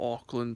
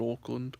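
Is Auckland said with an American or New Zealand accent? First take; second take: American; New Zealand. First: Auckland is said with an American accent. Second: Auckland is said with a New Zealand accent. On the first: This is how the speaker personally says it. "for me, well, I call it" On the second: This is how locals say it. "but I know it's called"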